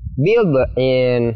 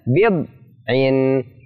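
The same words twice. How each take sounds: First: The middle consonant is bounced with an echo. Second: The middle consonant is pressed and held. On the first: The speaker calls it wrong. "Tidak boleh dibaca bid'in, dipantulkan" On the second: The speaker calls it right. "ditahan atau ditekan"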